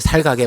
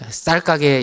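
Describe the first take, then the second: First: The first consonant is plain. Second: The first consonant is tense. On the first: The speaker calls it wrong. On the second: The speaker calls it right.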